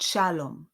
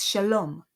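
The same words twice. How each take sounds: First: "shalom" wrongly stressed on SHA; SHA-lom, punch the first syllable of "shalom". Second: "shalom" with the LOM stressed; sha-LOM, punch the last syllable of "shalom"; stress on second syllable. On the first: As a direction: say "shalom" with weight up front, falling away. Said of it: "not shalom". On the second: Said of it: "goes on the second syllable". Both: Shown as a demonstration.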